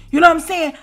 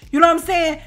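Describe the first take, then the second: No difference in how they are said.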